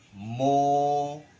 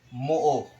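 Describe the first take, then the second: First: The vowel is held smoothly in one stretch. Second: The vowel is broken rather than held smoothly. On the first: The speaker calls it right. "Tuloy-tuloy lang pong pagbigkas hanggang sa makadalawang segundo ka" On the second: The speaker calls it wrong. "ang basa po dyan ay hindi moo"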